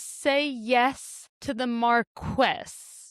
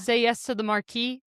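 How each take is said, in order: First: The last word rhymes with yes. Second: The last word does not rhyme with yes. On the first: The speaker calls it right. "It's supposed to rhyme" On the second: The speaker calls it wrong. "That's stupid"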